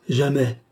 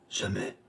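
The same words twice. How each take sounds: First: Firmer second refusal, voice rising back; frantic refusal. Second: Faint, much softer first refusal; frantic stammer. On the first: Distraught Marthe repeating her refusal, more firmly. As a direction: find your voice, distraught but firmer. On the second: Distraught Marthe refusing the count, faintly stammered. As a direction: barely get it out, distraught. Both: A narrator's reading. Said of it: "balbutia Marthe éperdue".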